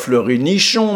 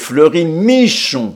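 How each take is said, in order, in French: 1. La consonne avant 'ichon' est un son N. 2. La consonne avant 'ichon' est un son M. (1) "on ne dit pas Fleurinichon" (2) "mais Fleurimichon"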